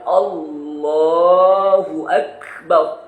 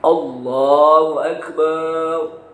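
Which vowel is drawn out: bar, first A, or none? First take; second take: none; bar. First: No vowel in the phrase is lengthened. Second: The bar syllable is drawn out long. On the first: God is the greatest. The speaker calls it right. "harus betul-betul kita baca dengan Allahu Akbar" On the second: It says God is a drum. The speaker calls it wrong. "Apalagi kalau barnya panjang"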